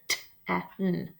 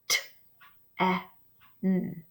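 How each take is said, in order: First: The sounds are said quickly, close together. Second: The sounds are said slowly, one by one.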